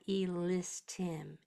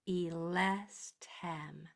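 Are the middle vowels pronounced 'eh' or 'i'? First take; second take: i; eh. First: The vowels are pronounced as short 'i' sounds. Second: The vowels are pronounced as open 'eh' sounds. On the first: The speaker calls it wrong. "It's not elistim" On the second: The speaker calls it right. "With a nice big eh. Don't let it get into I"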